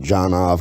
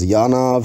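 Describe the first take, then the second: First: The name begins with a J sound. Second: The name begins with a Y sound. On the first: This is the Americanized pronunciation. "he just pronounces it Janov because he's an American" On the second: This is the original foreign pronunciation. "I used to think it was pronounced Yanov"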